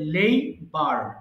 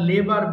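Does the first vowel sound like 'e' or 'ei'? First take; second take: ei; e. First: The first vowel glides like 'ei'. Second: The first vowel is a plain 'e'. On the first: The speaker calls it right. "উচ্চারণ হবে লেইবার" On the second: The speaker calls it wrong. "আমরা লেবার বলি"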